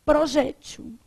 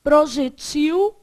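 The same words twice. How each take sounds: First: "projétil" stressed on JÉ, open e; stress on middle syllable. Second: "Projetil" loud and slow, stressed on the last syllable -TIL; stress on final syllable. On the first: Teacher showing both variants to the class, middle-syllable stress. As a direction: say "projétil" with a strong open JÉ and weak ending. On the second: Teacher showing both variants to the class, final-syllable stress. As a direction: stretch "Projetil" and land hard on -TIL. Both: Shown as a demonstration. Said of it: "A mesma coisa vai acontecer".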